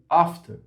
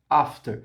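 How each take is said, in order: First: The first vowel sounds like the vowel in cat. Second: The first vowel sounds like the vowel in father. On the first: "mais americanizado" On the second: "mais britânico"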